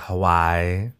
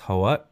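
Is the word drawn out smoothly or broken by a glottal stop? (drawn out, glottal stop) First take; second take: drawn out; glottal stop. First: The vowels are dragged out without any break. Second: A glottal stop breaks the word before the end. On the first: The speaker calls it wrong. "they just drag it out" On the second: The speaker calls it right. "you stop it. It's Hawat, the glottal stop"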